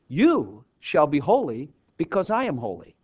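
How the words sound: It is stressed to sound like a reassuring promise. Holiness is assured as a gift. "I put the emphasis differently. So that instead of it being a command, I made it a promise"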